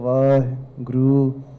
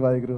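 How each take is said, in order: First: There is a pause in the middle of the word. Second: The word is said straight through without pause.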